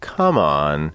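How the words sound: The pitch moves up and down. The speaker calls it right. "You have to kind of move your voice"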